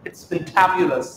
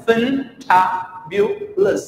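First: Said in the usual way. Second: "fantabulous" as fin... ta... byu... lus; very slow, higher "fantabulous", each part separate; syllable by syllable. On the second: Shown as a demonstration. ("fantabulous" धीरे, टुकड़ों में) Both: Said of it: "आराम से सुनो".

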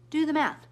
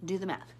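First: "Do the math" high and loud; high, forceful "Do the math"; emphatic challenge. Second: Said in the usual way. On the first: Real, not acted. Emphatic first take, then repeated.

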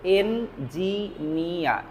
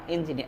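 First: এনজিনিয়া drawn out slowly, vowels held; slow demo. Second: Said in the usual way. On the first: Shown as a demonstration. Teacher stretching এনজিনিয়া slowly for learners. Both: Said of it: "এনজিনিয়া শব্দটা কাতাকানায় লেখা আছে".

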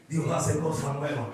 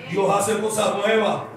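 First: Said in the usual way. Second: "Dios hace cosas nuevas" said slowly and louder, leaning on "nuevas"; slow it down and land hard on "nuevas"; a preacher hammering home "nuevas"; emphatic declaration. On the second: Shown as a demonstration. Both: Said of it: "Viste, Dios hace cosas nuevas".

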